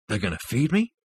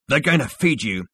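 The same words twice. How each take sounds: First: Tentative question rising on "me"; hopeful. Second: Higher, falling echo of "They're going to feed you"; emphatic echo. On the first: A narrator's reading. Zaphod hazards a guess about food, hopefully, rising on "me". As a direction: venture it hopefully, lifting "me" at the end. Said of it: "hazarded Zaphod hopefully". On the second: Acted. Rooster answers Zaphod's hope, emphatic and falling to "you". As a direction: turn it into a firm statement, falling to "you".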